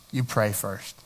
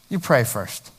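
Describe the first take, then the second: First: Softly emphatic. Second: Said in the usual way. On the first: Shown as a demonstration. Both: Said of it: "repeated for emphasis".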